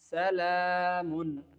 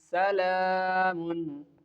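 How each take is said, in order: No difference in how they are said.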